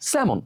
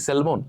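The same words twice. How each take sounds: First: স্যামন with silent l, "se-mon"; correct pronunciation. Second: স্যালমন with the l sounded, "sel-mon"; common mispronunciation. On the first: Teacher answering how it should sound, correctly pronounced. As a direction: leave the l out entirely in স্যামন. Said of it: "এর উচ্চারণ কি হবে". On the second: Teacher showing how we stress the l, mispronounced. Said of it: "stress দিই". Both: Shown as a demonstration.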